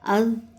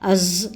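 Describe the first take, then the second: First: The consonant is a soft th between teeth. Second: The consonant sounds like a hissing s or z. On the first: The speaker calls it right. "बल्कि अज़, अज़, अज़ इस तरीक़े से पढ़ेंगे" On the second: The speaker calls it wrong. "अज़ नहीं पढ़ेंगे"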